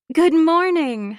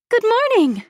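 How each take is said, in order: First: Drawn-out, higher and louder greeting; morning greeting. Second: Very high, loud, happy chirp; chirpy. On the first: Acted. Housemate greets the narrator from behind, drawn-out and high. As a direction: stretch out a lilting hello. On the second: A narrator's reading. Assistant arrives at the gallery in the morning, chirping happily. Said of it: "she chirps, as happy as a bird".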